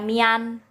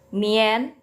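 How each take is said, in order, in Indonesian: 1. Vokal setelah i terdengar seperti 'a'. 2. Vokal setelah i terdengar seperti 'e'. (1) "bukan bacanya mian" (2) "Tapi mien"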